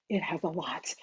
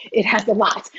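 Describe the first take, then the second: First: Dropped right down, nearly under the breath; soft aside. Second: Said in the usual way. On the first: Real, not acted. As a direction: say it softly to yourself. Hyping the ebook to viewers.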